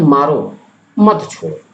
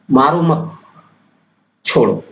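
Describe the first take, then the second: First: "मारो" alone, a break, then "मत छोड़ो" together and falling; pause after मारो. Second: "मारो मत" together, a clear pause, then "छोड़ो" falling; pause after मत. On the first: Teacher showing students a pause after मारो, "मारो", break, then "मत छोड़ो". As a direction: say "मारो", stop, then "मत छोड़ो" as one phrase. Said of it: "मारो के बाद अगर आप अर्धविराम लगाते हैं".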